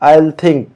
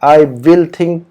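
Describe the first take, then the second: First: The words are contracted to one syllable, I'll. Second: The words are said in full, I will. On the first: This is how it is usually said in conversation. The speaker calls it right. "बोलने में ज़्यादातर I'll बोलते हैं" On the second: This is how it is usually written. The speaker calls it wrong. "लिखने में तो बराबर ऐसे ही आया है"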